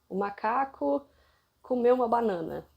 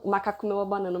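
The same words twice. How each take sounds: First: The sentence is spoken slowly and clearly. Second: The sentence is spoken quickly and hurriedly. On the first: The speaker calls it right. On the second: The speaker calls it wrong.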